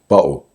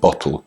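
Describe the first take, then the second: First: The middle consonant is a glottal stop. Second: The middle consonant is a clear t sound. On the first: It sounds more working class. "The glottal stop" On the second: It sounds like standard speech. "Instead of saying"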